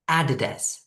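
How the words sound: It is said with a British accent. "in British English, it would be a like an apple, then the das"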